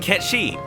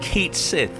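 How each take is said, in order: First: The name sounds like one word, ketshi. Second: The name sounds like two words, kate sith. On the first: This follows the original Japanese pronunciation. The speaker calls it right. "the Japanese pronunciation of the name is like Ketshi" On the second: This reads the name as English spelling. The speaker calls it wrong. "not Kate Sith"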